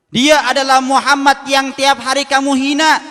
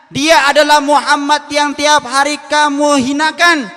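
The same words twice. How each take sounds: First: Higher and louder, driving it home; emphatic reveal. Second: Higher, louder and slow, each word weighted; slow emphatic reveal. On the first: Abu Bakar tells the beggar who fed him, emphatic. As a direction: proclaim the name with force. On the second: Abu Bakar repeats the reveal to the beggar, slow and forceful. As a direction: hammer the repeated line home slowly. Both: Acted.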